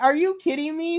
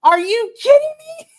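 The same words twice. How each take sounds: First: Higher, incredulous groan; a tamer take on the same outrage; exasperated disbelief. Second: Shrieking high-pitched disbelief; outraged disbelief. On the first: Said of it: "I was just like". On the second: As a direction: squeal it out like you can't believe the booking. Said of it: "I'm like". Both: Retold or imitated.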